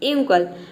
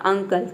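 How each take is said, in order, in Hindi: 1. शब्द 'yoo' ध्वनि से शुरू होता है। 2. शब्द 'uh' ध्वनि से शुरू होता है। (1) "यूंकल नाम का तो कोई वर्ड ही नहीं होता है" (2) "फिर आपने रखा अ, ... ये प्रोनाउंसिएशन सही है"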